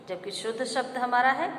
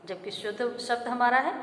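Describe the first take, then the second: No difference in how they are said.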